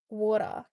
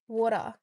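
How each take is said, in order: First: It is said in an Australian accent. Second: It is said in an Australian accent.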